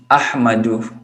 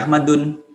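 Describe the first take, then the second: First: The word ends in a vowel without n. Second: The word ends with an added n sound. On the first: The speaker calls it right. "Ahmadu tidak dibaca Ahmadun" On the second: The speaker calls it wrong. "tidak dibaca Ahmadun"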